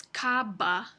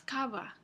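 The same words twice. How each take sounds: First: Cava said with a plosive b, lips fully closed; hard stopped b. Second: Cava said with a soft b, lips barely touching; soft fricative b. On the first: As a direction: cava with a hard occlusive b like English b. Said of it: "con una oclusiva". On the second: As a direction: cava with a gentle fricative b between the vowels. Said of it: "con una B más suave". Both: Shown as a demonstration.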